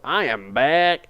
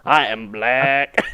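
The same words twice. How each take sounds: First: Slow, drawn-out greeting catchphrase; slow mimicked announcement; imitated catchphrase. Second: Very slow, drawn-out parody of a catchphrase; hugely elongated mimicked announcement; parodied catchphrase. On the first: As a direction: stretch it out like someone's signature intro. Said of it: "You always used to go". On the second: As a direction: stretch each word like a mock intro. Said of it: "now the entire website goes".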